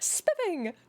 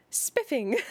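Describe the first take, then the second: First: Much higher, laughing through the word Spiffing; laughing exclamation. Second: Belle's exclamation, lightly voiced, a bit higher; a touch of a plummy, delighted girl. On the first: Acted. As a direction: giggle out Spiffing in delight. Belle repeats it, laughing.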